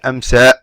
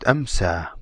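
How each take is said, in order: First: The final vowel is cut off abruptly. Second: The final vowel fades out gradually. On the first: The speaker calls it wrong. "you don't say amsa. You don't cut the sound of an alif" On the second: The speaker calls it right. "it fades out"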